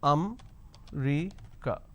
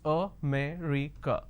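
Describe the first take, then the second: First: The word is said with three syllables. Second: The word is said with four syllables. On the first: The speaker calls it wrong. "So they drop a syllable" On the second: The speaker calls it right. "So there are four syllables"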